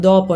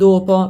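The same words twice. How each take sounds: First: It is said with the local regional accent. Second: It is said with the standard Italian accent. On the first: "diciamo dopo" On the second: "non dopo"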